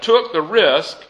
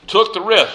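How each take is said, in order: First: Took the risk said slowly and weighted; stress on took the risk. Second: Said in the usual way. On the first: Shown as a demonstration. Preacher underlining what Jesus emphasized, slow and weighted. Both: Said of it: "Jesus emphasized that".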